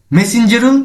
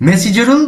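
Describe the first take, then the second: No difference in how they are said.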